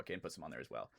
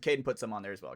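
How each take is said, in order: First: Much softer, lower repeat under the breath; quiet echo. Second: Said in the usual way. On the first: Real, not acted. Host murmurs his own line again, softly. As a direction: mutter the line again to yourself.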